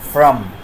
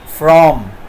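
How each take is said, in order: First: The word has a weak, reduced vowel. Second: The word has a full, strong vowel.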